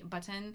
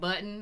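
First: The T sound is clearly articulated. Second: The T sound is relaxed and dropped. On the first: This is a consciously trained, more careful way of speaking. "I'd say button" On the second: This is the natural, relaxed way of speaking. "instead of button"

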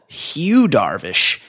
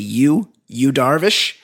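First: The first name starts with an H sound. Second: The first name starts without an H sound. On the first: "I thought this guy was called Hugh Darvish" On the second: "They swallow the H and they just say Hugh Darvish"

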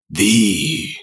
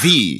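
First: It is said in a dramatic, captivating voice. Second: It is said in a plain, ordinary voice.

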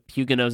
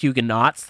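First: The word has a French-style pronunciation. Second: The word has an English-style pronunciation. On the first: "Huguenots is the French" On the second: "It's the anglicized version"

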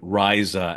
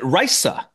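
First: The middle consonant is a buzzing z sound. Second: The middle consonant is a hissing s sound. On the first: "as if it was a Z" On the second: "he has a S sound"

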